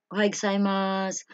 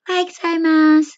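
First: Said in the usual way. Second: Very high-pitched, loud imitation of a Japanese woman; tiny high Japanese woman's voice. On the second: Shown as a demonstration. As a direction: make the voice small and high, like a Japanese woman's greeting. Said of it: "as in, parang ganito ha".

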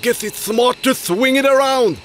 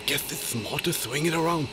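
First: Said in the usual way. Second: Low fast mumble. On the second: Shown as a demonstration. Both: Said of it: "What a sentence".

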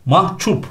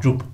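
First: MAHCUP as "mahçup"; common mispronunciation. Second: MAHCUP with voiced c; correct pronunciation. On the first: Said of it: "çok karıştırılır". (mahcup yanlış, "mahçup") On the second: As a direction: say mahcup as mah-cup. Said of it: "C'li olacak". (mahcup doğru, C ile) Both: Shown as a demonstration.

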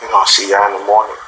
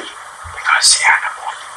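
First: Said in the usual way. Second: Soft whispered goodbye. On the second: Shown as a demonstration. Dad whispers goodnight to the viewers, hushed whisper. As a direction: breathe it out in a whisper.

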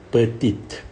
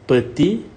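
First: Petite with the final t sounded clearly; French petite, final t pronounced; feminine petite. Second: Petit with a silent final t, ending on the vowel; French petit, no t at the end; masculine petit. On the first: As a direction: say petite as pe-TEET. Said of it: "Petite, femina". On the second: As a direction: say petit as pe-TEE. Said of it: "small for masculine". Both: Shown as a demonstration.

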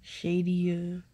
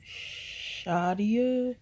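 First: Shadia said as SHAY-dee-uh; mispronouncing her name. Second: SHAH-dee-uh said slowly with an open ah; correct pronunciation. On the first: Retold or imitated. Mocking people who mispronounce her name, SHAY-dee-uh. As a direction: Shadia with an ay sound, imitating people who say it wrong. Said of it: "Some people are like". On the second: Shown as a demonstration. Teaching the vlog audience her name, slow and careful. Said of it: "my name is Shadia".

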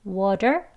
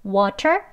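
First: "water" with the T turned into a soft D; soft D sound. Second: "water" slowly, with a clear aspirated T; hard T. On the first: Teacher shows learners the flap T, soft D. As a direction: say "water" as "wadder". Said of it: "D, 부드러운 D 발음". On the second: Teacher sets up the contrast for learners, hard T. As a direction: say "water" with a crisp T in the middle. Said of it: "부드러운 D 발음". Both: Shown as a demonstration.

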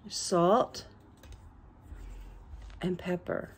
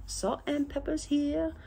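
First: Said in the usual way. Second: High, soft comic voice; silly put-on voice. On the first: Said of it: "don't ever do that again". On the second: Showing viewers salt and pepper, silly put-on voice. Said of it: "please, [name], don't ever do that again".

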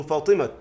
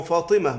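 First: فاطمة as fatimat, final t sounded; rare pausing on t. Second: فاطمة as fatimah, no t; usual pausal h. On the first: Teacher showing the rare option, فاطمة pronounced fatimat. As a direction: stop فاطمة on a still t. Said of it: "ولكنه قليل". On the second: Teacher giving the singular example, فاطمة in usual pausal fatimah. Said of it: "على المفرد بالتاء". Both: Shown as a demonstration.

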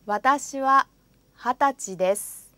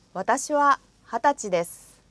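No difference in how they are said.

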